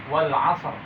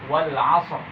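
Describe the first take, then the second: Both takes have the same delivery.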